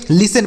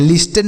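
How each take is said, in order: First: "लिसन" with no T sound; silent T. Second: "लिस्टन" with the T sounded; wrong pronunciation. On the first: Teacher correcting learners' reading, "लिसन" with the T silent. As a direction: say "लिसन", going straight from S to N. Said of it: "लिसन पढ़ा जाएगा". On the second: Teacher showing learners what to avoid, "लिस्टन" with a spoken T. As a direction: say "लिस्टन", pronouncing the silent T. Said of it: "लिस्टन नहीं पढ़ेंगे". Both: Shown as a demonstration.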